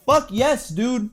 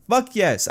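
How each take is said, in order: First: A high, delighted yelp of approval; thrilled cheer. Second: Excited cheer. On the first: Fan cheering the Charlotte and Asuka match, thrilled high yelp. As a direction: hype yourself up for the match you love. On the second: Fan repeating his approval, gleeful cheer. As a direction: savour the good news. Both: Real, not acted.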